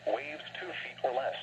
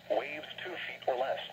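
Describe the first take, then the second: No difference in how they are said.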